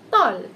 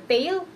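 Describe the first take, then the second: First: The vowel is neither short nor long A. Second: The vowel is a long A sound. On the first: The speaker calls it right. "we pronounce this as tall" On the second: The speaker calls it wrong. "or tail"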